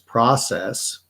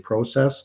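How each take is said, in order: First: It is said with an American pronunciation. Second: It is said with a Canadian pronunciation. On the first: "the American pronunciation is process" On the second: "I say process"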